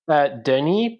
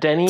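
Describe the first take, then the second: First: The name is pronounced the French way. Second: The name is pronounced the English way. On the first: "French is my first language. So it's technically Denny" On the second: "but Denny, it's fine"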